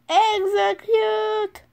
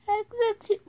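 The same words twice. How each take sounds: First: Slow, high, loud villain command; hammed-up order; dramatic command. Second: Lighter echo of the order; repeated command. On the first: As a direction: draw it out like a movie villain. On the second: Pretend.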